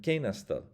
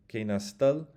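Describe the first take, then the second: First: Kena stil with Ke punched high; accent on the front of Kena, stil dropping; stress on first syllable. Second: Kena stil, landing hard and louder on stil; accent at the back, on stil; stress on final stil. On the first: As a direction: lead hard on Ke, falling through stil. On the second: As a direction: push stil up at the end of Kena stil. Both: Shown as a demonstration. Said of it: "Those are different things".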